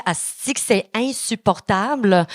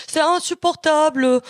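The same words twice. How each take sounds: First: Said in the usual way. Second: Higher, slow put-on French accent on "insupportable". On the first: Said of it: "quand je m'adresse aux Français". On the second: Shown as a demonstration. Comic slipping into French from France, mock French accent. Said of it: "je prends l'accent français".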